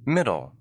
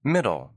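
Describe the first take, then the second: No difference in how they are said.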